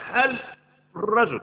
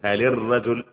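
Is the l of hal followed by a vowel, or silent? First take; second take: silent; vowel. First: The l of hal carries no vowel. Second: The l of hal takes an i vowel. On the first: The speaker calls it wrong. "ما اقدرش اقول هل الرجل، هذا مستحيل" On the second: The speaker calls it right. "محرك اللام ديت بالكسر، قول هل الرجل"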